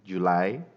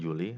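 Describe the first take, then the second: First: It is said with English pronunciation. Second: It is said with Indonesian pronunciation. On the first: The speaker calls it right. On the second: The speaker calls it wrong.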